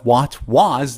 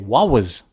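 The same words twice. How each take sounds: First: The T at the end of 'what' is pronounced. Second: The T at the end of 'what' is dropped. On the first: "instead of" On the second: "they remove the T and say wa"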